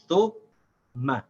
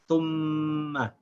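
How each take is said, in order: First: The word breaks into two parts with a stop. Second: The m sound is held through without stopping. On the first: The speaker calls it wrong. "I made it two syllables. I said thu, ma. This is also incorrect" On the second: The speaker calls it right. "without stopping the sound of the meme, say ma. I should say thumma"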